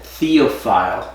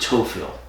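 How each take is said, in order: First: The name is said in an English style. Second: The name is said in a Creole style. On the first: "the English pronunciation" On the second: "in Creole it's pronounced Tophil"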